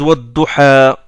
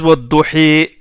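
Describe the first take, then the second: First: The final vowel is an open a. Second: The final vowel leans toward i. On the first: This is how the Quraysh tribe says it. "ne font pas l'inclinaison" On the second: This is how other tribes say it. "cette inclinaison"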